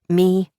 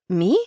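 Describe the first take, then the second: First: It is said in a normal tone. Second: It is said in a breathless squeak.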